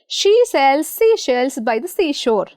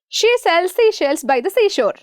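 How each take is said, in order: First: It is said at a moderate pace. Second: It is said very fast.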